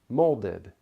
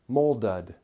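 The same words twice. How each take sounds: First: The last syllable has a short i vowel. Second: The last syllable has a schwa vowel. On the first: The speaker calls it right. "The vowel sound is closer to a short I sound" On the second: The speaker calls it wrong. "We don't say molded"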